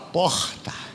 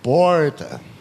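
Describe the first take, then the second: First: It is said in an Amazonas accent, guttural R. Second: It is said in a São Paulo accent. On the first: "o amazonense fala porta. O R é francês, aquele R gutural" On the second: "imitar os paulistas e os paranaenses"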